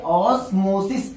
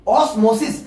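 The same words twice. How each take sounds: First: osmosis said slowly and deliberately; slow drawn-out term. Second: Said in the usual way. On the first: Shown as a demonstration. Teacher answering his own question for students, slow and deliberate. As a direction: let osmosis sink in, dwell on it. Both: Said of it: "क्या कहते हैं".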